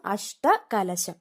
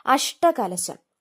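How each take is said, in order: First: Said in the usual way. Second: അഷ്ടകലശം said very slowly, falling at the end; drawn-out word. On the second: Shown as a demonstration. Teacher announcing the word for students to note, very slowly. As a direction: stretch out അഷ്ടകലശം syllable by syllable. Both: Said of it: "ആ ടാ ഏതാന്ന് നോക്കണം".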